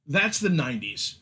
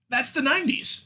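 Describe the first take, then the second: First: Said in the usual way. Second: High, sing-song brush-off; a breezy, much higher catchphrase; mock dismissive quote. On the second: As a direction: wave it away like a shrugging excuse. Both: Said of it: "can just be written off as".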